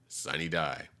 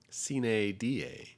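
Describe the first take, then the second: First: The phrase has an anglicized English pronunciation. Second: The phrase has a classical Latin pronunciation.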